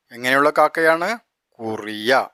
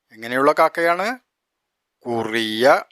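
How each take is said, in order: Both takes have the same delivery.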